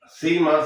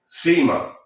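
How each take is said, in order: First: It is said in a Venezuelan Spanish accent. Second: It is said in a Spain Spanish accent.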